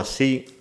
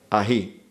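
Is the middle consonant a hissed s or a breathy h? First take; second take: hissed s; breathy h. First: The middle consonant is a hissed s. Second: The middle consonant is a breathy h.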